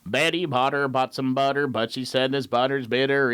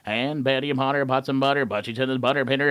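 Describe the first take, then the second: First: It is said slowly, to a steady beat. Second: It is said fast, with lively inflection.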